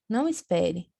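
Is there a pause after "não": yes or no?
no. There is no pause after não.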